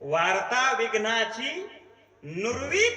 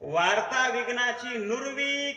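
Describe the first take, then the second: First: There is a pause before नुरवी. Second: नुरवी runs on without a pause. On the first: नुरवी begins the next phrase. The speaker calls it wrong. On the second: The news of obstacles is destroyed. The speaker calls it right.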